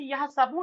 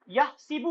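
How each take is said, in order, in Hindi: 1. बीच का अक्षर 'a' स्वर के साथ बोला जाता है। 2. बीच का अक्षर 'i' स्वर के साथ बोला जाता है। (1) "कुरान मजीद में जबर आया था" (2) "डिक्शनरी में जेर आएगा आपको"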